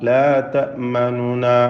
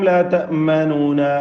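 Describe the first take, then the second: First: The middle vowel is barely voiced and quickly passed. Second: The middle vowel is fully and clearly pronounced. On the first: The speaker calls it right. "പെട്ടെന്ന് അങ്ങ് എടുക്കുക" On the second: The speaker calls it wrong. "പൂർണ്ണമായും ... വ്യക്തമാക്കരുത്"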